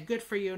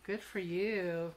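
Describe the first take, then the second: First: It is said plainly and sincerely. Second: It is said in a mocking, sarcastic tone.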